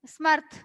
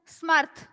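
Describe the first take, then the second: First: The s runs straight into the m. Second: The s runs straight into the m.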